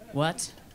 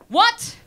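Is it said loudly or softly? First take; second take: softly; loudly. First: It is said softly. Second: It is said loudly.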